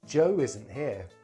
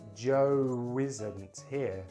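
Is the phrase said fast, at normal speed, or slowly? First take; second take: fast; slowly. First: The phrase is said quite quickly. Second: The phrase is said very slowly. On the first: "I'm going to say them quite quickly" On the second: "Then I'm going to say it very slowly"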